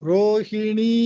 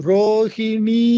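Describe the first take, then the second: No difference in how they are said.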